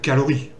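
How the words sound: It is said with a French accent. The speaker calls it wrong. "sinon ce serait du français"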